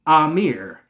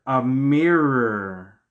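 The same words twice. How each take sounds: First: AMIR said as "ah-MEER", long open first vowel; Amir as a name. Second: A MIRROR very slow, "uh-MEER-errr" with a trailing R; drawn-out wordplay. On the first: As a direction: say AMIR in two syllables, "ah-meer". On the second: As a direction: stretch A MIRROR to reveal the pun on Amir. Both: Shown as a demonstration. Wordplay turning Amir into mirror.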